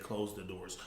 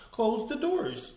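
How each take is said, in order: First: Low, soft mock command; imitating the preacher's way. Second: Slow drawn-out order; mock preacher drawl. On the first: Mocking how the pastor ordered the ushers, hushed. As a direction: copy his smug hush. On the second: Mocking how the pastor ordered the ushers, slow and drawn. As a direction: stretch it out like the pastor. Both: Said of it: "The way he said".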